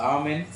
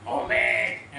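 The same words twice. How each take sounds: First: Said in the usual way. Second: Low, heavy, booming "amen"; forceful amen. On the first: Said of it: "చక్కగా మంచిగా". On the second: Shown as a demonstration. Preacher showing congregation how not to respond, forceful amen. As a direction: show an overdone, forceful amen. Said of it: "అని గట్టిగా ఏం చెప్పక్కర్లే".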